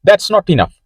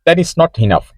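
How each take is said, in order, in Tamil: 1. 'That is' ஒரே சொல்லாகச் சுருங்கிச் சொல்லப்படுகிறது. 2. 'That is' முழுமையான இரண்டு சொற்களாகச் சொல்லப்படுகிறது.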